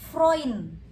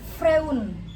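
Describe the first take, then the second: First: The vowel is said as oi. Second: The vowel is said as separate e-u. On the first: The speaker calls it right. "E U itu jadinya O I" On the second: The speaker calls it wrong. "bukan Freun"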